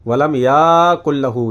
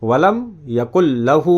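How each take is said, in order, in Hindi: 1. 'ya' का स्वर लंबा खींचा जाता है। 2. 'ya' का स्वर छोटा रखा जाता है।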